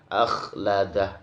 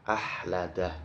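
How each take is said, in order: First: The middle consonant is a raspy, snore-like scrape. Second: The middle consonant is a smooth, breathy h. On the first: The speaker calls it right. "agak sedikit ngorok" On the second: The speaker calls it wrong. "khoknya terbaca hak"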